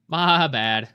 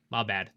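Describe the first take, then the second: First: "My bad." said again, louder and more emphatic; emphatic repeat of "My bad."; louder apology. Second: Said in the usual way. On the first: Shown as a demonstration. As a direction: belt out "My bad." as a bigger admission.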